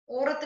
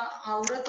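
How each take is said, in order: First: औरत said "orat"; wrong vowel. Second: Said in the usual way. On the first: Shown as a demonstration. Teacher correcting a mistake, औरत as "orat". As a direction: begin औरत on a pure o. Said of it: "नहीं होता". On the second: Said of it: "होता है".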